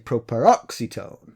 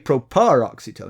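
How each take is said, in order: First: The stress falls on the third-to-last syllable. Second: The stress falls on a syllable other than third-to-last. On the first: The speaker calls it right. "You have to say properoxytone" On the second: The speaker calls it wrong. "You can't say properoxytone"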